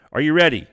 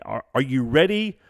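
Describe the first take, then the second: First: Hype call. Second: Said in the usual way. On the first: Real, not acted. Hyping up viewers, louder.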